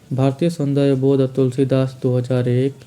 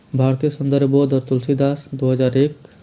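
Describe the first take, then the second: No difference in how they are said.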